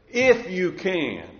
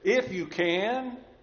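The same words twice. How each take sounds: First: It is said as a surprised exclamation. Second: It is said as a question. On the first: It expresses surprise that this is even in doubt. "that's not a question, it's an explanation. An exclamation" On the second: It asks whether the thing can be done. "if you read it with a question mark, it should read like this"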